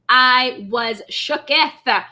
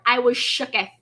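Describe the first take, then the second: First: I was shooketh, drawn out slow with weight on shooketh; slow emphatic repeat. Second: Said in the usual way. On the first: Real, not acted. Streamer to chat, dragging out shooketh. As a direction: drag shooketh out for effect. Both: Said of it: "I was all the way here for it".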